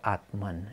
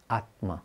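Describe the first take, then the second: First: Atman with the N added at the back; English pronunciation. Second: Atma said without a final n, stress on the first syllable; Sanskrit pronunciation. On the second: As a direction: say Atma the Indian way, no N at the end. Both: Shown as a demonstration. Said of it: "In English they make it, put an N at the back".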